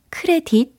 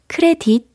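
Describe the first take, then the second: Both takes have the same delivery.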